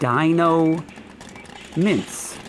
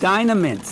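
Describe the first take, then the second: First: The first part sounds like dino, as in dinosaur. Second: The first part sounds like dyna, as in dynamite. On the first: The speaker calls it wrong. "I tried to stretch it into a dinosaur" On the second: The speaker calls it right. "More pronounced as Dynamints, like dynamite"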